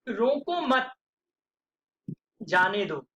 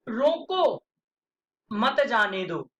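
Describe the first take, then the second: First: There is a pause after the second word. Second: There is a pause after the first word.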